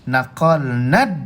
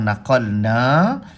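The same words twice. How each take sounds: First: The final vowel is cut short. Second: The final vowel is held long. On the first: "naqalna tidak lagi dibaca dengan panjang" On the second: "sepatutnya kita kena baca panjang naqalna"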